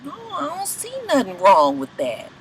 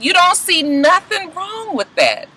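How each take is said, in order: First: Softer, unbothered shrug of a reply; mock Stevie J. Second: Higher and slow, mock disbelief; incredulous doctor. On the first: Stevie answering the doctor, soft unbothered imitation. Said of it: "He was just like". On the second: Doctor questioning Stevie, slow incredulous imitation. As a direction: drag it out like you can't believe him. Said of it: "The doctor is incredulous".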